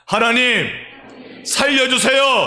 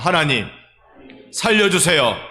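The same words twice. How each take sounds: First: It is said with more earnest pleading. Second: It is said in a plain, ordinary way.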